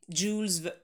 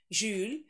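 First: It begins with a hard j sound. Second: It begins with a soft zh sound. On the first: This is the English pronunciation. "через «дж» звук" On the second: This is the original French pronunciation. "В оригинале он произносится именно Жюль"

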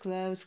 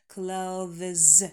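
First: The th sound is dropped before the z. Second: A voiced th sound comes before the z. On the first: The speaker calls it right. "произносить это слово как close. Самый удобный вариант" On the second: The speaker calls it wrong. "на стыке межзубный звонкий и далее звонкий «з». Неудобное произношение"

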